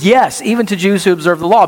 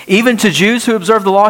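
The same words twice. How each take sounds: First: Said in the usual way. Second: Rhetorical objection, fast and rising in disbelief; incredulous question. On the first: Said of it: "He says". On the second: Retold or imitated. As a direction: voice the doubter's surprised challenge, fast. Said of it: "Wait a minute".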